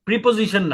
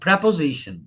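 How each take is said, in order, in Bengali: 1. প্রথম সিলেবলে 'ee' স্বরধ্বনি আছে। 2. প্রথম সিলেবলে 'eh' স্বরধ্বনি আছে। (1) "প্রিপোজিশন না" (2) "উচ্চারণ হচ্ছে প্রেপোজিশন"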